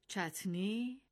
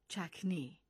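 First: The middle consonant is a t sound. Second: The middle consonant is a k sound.

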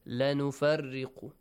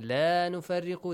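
First: The vowel of the first word is short. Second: The vowel of the first word is stretched long. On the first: We surely make a distinction. The speaker calls it wrong. "They say" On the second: We make no distinction. The speaker calls it right. "Instead of saying"

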